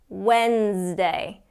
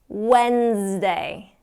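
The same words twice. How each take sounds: The two takes are said the same way.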